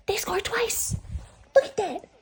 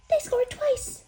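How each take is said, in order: First: High, breathy thrilled whisper; excited whisper. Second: Much higher, louder thrilled cry; excited squeal. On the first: Hockey fan whispering amazed that Montreal scored twice. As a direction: gasp it out in wonder. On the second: Hockey fan squealing that Montreal scored twice. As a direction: squeal it out in delight. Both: Real, not acted.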